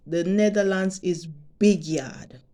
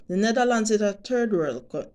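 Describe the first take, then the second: First: Jamaican way of saying it. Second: Said in the usual way. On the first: Shown as a demonstration. To her subscribers, saying it the Jamaican way in a light Jamaican lilt. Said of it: "Let me say it like Jamaicans say it". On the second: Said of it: "let me say it like this".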